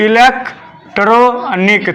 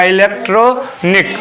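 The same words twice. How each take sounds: First: "electronic" slowly in three separated chunks; split in three. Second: "electronic" slowly as two chunks, electro and nik; short pause before the "nik" of "electronic"; split in two. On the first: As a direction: break "electronic" into e-lek, tro, nik. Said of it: "तीन गो syllable बनता है". ("Electronic" को तीन खंडों में तोड़कर) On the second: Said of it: "short कर लूँ तो दो में होगा". ("इलेक्ट्रॉनिक" को दो खंडों में, धीरे) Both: Shown as a demonstration.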